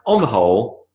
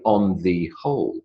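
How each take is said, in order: First: 'The' is reduced to one little sound. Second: 'The' is pronounced as a full word. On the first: The speaker calls it right. "It's almost simply one little sound" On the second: The speaker calls it wrong. "I don't say"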